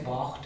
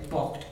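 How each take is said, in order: First: Bocht with the raised Ulster O, said softly; how Ulster says bocht. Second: How the south says bocht; Munster bocht. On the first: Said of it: "We say bocht". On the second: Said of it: "in Munster they would say bocht". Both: Shown as a demonstration.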